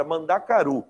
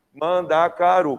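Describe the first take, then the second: First: Said in the usual way. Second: "Mandacaru" slowly split into its syllables. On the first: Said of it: "Mandacaru, quatro sílabas". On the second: Shown as a demonstration. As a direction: say "Mandacaru" slow and loud, man-da-ca-ru. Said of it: "quatro sílabas".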